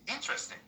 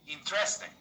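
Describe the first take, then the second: First: The stress is on the first syllable. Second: The stress is not on the first syllable. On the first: The speaker calls it right. "The stress is on the first part" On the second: The speaker calls it wrong. "Most people in my country... they say"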